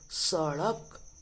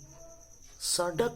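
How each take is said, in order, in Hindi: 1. बीच का व्यंजन जीभ का एक तेज़ फ़्लैप है। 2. बीच का व्यंजन कठोर मूर्धन्य स्टॉप है। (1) "बिंदु लगने के कारण इसको ड़ पढ़ते हैं" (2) "कुछ लोग इसको पढ़ते हैं सड़क, लेकिन बिंदु लगी है। सड़क नहीं"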